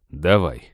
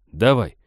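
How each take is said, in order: First: Low, resigned go-ahead; making up one's mind. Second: Loud, confident order; confident command. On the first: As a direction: agree as if just deciding, pitched down. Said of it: "решился он". (решившись, негромко по тону вниз) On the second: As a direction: give the go-ahead firmly and louder. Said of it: "уверенно скомандовал". (уверенная команда) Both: A narrator's reading.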